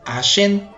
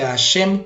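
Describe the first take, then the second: First: The word ends with an n sound. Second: The word ends with an m sound. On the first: It means tooth. The speaker calls it wrong. "dicen Hashem con una N al final" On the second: It refers to God respectfully. The speaker calls it right. "Hashem con una M al final"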